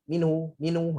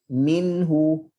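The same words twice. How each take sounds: First: "minhu" swallowed as "minu", no release on the n; wrong minhu. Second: "minhu" with a short, clear release on the n; correct minhu. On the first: Teacher shows the wrong way to say "minhu". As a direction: drop the nun sound so "minhu" becomes "minu". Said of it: "tu minu, minu dia dah tak ada". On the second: Teacher demonstrates the correct "minhu" to students. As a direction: let the nun in "minhu" sound briefly before the h. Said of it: "bagi lepas suara supaya bunyi nun tu dapat didengar". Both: Shown as a demonstration.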